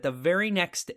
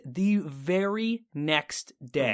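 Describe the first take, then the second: First: Said in the usual way. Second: "the very next day" stretched very slowly, word by word; drawn-out emphasis. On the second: Real, not acted. Storyteller building up his return, "the very next day" drawn out slowly.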